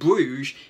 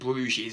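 First: The word ends without an S sound. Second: The word ends with an audible S sound. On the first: The speaker calls it right. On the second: The speaker calls it wrong.

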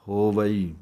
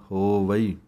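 No difference in how they are said.

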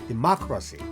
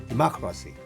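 The two takes are said the same way.

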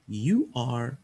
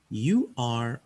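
No difference in how they are said.

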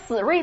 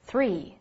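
First: The first sound lacks the tongue between the teeth. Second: The first sound has the tongue between the teeth. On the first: The speaker calls it wrong. "你不咬舌，读成three 那才难听呢" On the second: The speaker calls it right. "Three 一定要咬舌"

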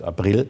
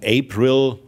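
First: The name is pronounced as in German. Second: The name is pronounced as in English. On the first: The character says her own name this way. "deshalb dennoch aber deutsch ausspricht" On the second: The name comes from a pop song. "nach einem Popsong"

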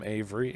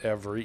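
First: The name starts with an 'av' sound. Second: The name starts with an 'ev' sound. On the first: "some Avery, A-V-E-R-Y" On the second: "some pronounce it Avery, E-V-E-R-Y"

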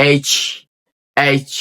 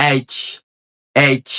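Both takes have the same delivery.

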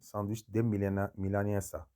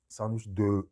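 First: The vowel in de is a clear e. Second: The vowel in de sounds like French eu. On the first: The speaker calls it right. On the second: The speaker calls it wrong.

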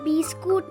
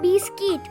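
First: The last syllable is said as 'kut'. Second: The last syllable is said as 'kit'. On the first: The speaker calls it wrong. "ওটা বিস্কুট নয়" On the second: The speaker calls it right. "ওটা বিস্কিট"

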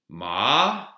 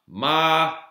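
First: The pitch moves instead of staying level. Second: The pitch stays high and level.

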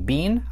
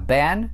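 First: The word is said in a non-American way. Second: The word is said in an American accent. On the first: "я произношу его не been" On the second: "а been, так как я говорю на American English"

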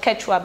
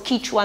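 First: The name uses the vowels e and o. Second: The name uses only the vowels i, a and u. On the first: This is the wider name shaped by Spanish. The speaker calls it wrong. "not Quechua" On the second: This is the local name of the language. The speaker calls it right. "on the basis of just the three-way vowel distinction"

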